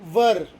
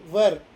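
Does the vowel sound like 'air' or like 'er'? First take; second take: er; er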